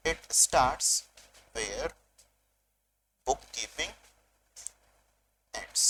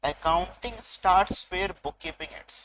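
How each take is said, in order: First: Word by word, long pauses between; dictation. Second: Said in the usual way. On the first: Shown as a demonstration. Teacher repeats the definition for students to write, dictation. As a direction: dictate it slowly in separate pieces for note-takers. Repeats the sentence for note-taking.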